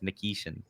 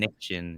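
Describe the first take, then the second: First: The name is said with the middle vowel. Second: The name is said without the middle vowel. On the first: The speaker calls it right. "It's Nikishin" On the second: The speaker calls it wrong. "I was forgetting the I"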